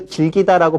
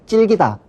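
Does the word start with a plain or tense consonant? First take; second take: plain; tense. First: The word starts with a plain consonant. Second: The word starts with a tense consonant. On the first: The speaker calls it right. "질기다라고 발음하는 경우가 더 드문" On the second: The speaker calls it wrong. "우리가 찔기다를 많이 발음하지만"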